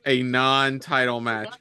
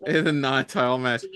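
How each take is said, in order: First: "a non-title match" slow, every word pressed; slow emphatic stress. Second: Said in the usual way. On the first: Shown as a demonstration. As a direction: spell out "non-title" slowly and firmly. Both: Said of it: "Yes, Nick, a non-title match".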